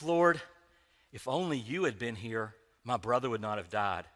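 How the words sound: It sounds gentle, saintly and serene.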